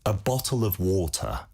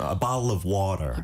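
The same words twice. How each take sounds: First: It is said in a standard British accent. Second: It is said in an American accent, t flapped. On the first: "영국식으로" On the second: "미국식으로"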